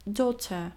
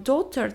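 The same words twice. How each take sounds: First: Daughter said "doter"; daughter, no gh sound; daughter, clean "doter"; silent gh. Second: Daughter with a "g" sound; daughter, gh pronounced; wrong gh spoken. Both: Shown as a demonstration. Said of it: "nie czytamy daughter".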